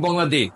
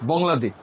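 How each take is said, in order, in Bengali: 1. এটা বাংলা উচ্চারণে বলা হচ্ছে। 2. এটা ফরাসি উচ্চারণে বলা হচ্ছে। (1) "আর আপনি বলবেন" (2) "ওরা ওরা মতো বাংলাদেশ। এই যে এইভাবে"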